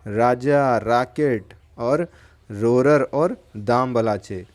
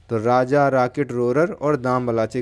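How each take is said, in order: First: Names spaced out slowly, one by one; slow, careful dictation of four names. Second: Said in the usual way. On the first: Shown as a demonstration. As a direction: spell the names out slowly for the class. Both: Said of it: "इनके नाम क्या हैं?".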